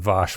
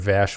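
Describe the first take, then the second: First: The name is pronounced the way the show says it. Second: The name is pronounced the way it is spelled. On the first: "which is the way they pronounce it" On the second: "which is the way it's phonetically spelled"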